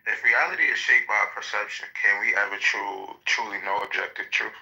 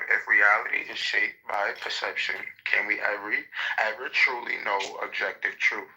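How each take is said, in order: First: It is said at a normal speed. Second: It is said slowly and deliberately.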